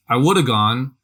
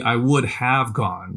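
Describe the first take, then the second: First: "woulda" run together, have cut to a short "a"; casual reduced speech. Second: Slow, every word spelled out, "would have" fully said; slow, each word separate: "would" then "have"; careful full form. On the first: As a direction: say it fast and relaxed, "woulda" as one word. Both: Shown as a demonstration. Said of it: "is literally".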